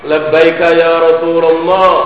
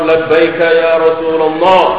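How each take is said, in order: The two takes are said the same way.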